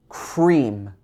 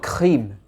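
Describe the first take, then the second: First: The R is made with the tongue mid-mouth. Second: The R is a throaty sound, French style. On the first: The speaker calls it right. "It should be cream" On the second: The speaker calls it wrong. "it's not cream"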